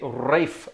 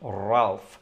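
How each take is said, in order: First: The name rhymes with safe, with no L sound. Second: The name has a short A and an L sound. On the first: The speaker calls it wrong. "Please don't say Rafe" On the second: The speaker calls it right. "He called himself Ralph"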